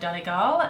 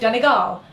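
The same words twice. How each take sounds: First: The stress is on the second syllable. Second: The stress is on the third syllable. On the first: The speaker calls it wrong. "I think I just changed the pronunciation there. ... I always put the emphasis on the second syllable" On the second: The speaker calls it right. "They put the the emphasis on the third syllable"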